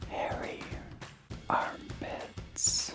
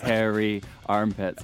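First: It is said in a low, sultry voice. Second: It is said in a normal voice.

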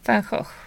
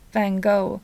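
First: The name is said with a Dutch pronunciation. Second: The name is said with an American pronunciation. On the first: This is how it is said in the original language. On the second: This is how Americans say it.

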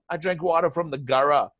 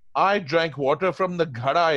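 First: The last word has an English-style r sound. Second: The last word has the native retroflex flap. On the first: The speaker calls it wrong. "So they'll go" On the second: The speaker calls it right. "So you must ask them to say"

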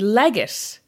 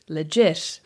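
First: It is pronounced with an English-sounding pronunciation. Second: It is pronounced with a French-sounding pronunciation. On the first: It is the guest's surname. "is in fact how you pronounce Lindsay's surname" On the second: It is the name of the cafe. "how you pronounce the cafe legit"

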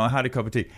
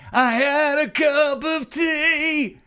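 First: It is said in a plain, ordinary voice. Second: It is said in an exaggerated, affected voice. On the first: A simple statement of fact. "what would be just like, you know" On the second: A trivial fact made to sound dramatic. "he just had a fucking cup of tea"

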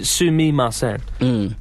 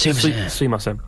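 First: Every syllable of the word is pronounced fully. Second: It is said quickly with part of it dropped. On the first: "It's actually sumimasen" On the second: "if you say it quickly, you can kind of drop the first sentence"

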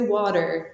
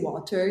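First: It is said with an American accent. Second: It is said with a non-American accent.

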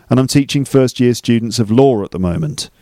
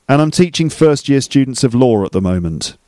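The two takes are said the same way.

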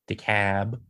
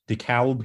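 First: The name is said the local Georgia way. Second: The name is said in the speaker's usual way.

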